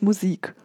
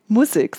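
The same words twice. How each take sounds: First: It is said in the standard German pronunciation. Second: It is said in the local regional pronunciation. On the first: This is not how people here say it. The speaker calls it wrong. "nicht Musik" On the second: This is how people here say it. The speaker calls it right. "Musik, sagt man ja hier"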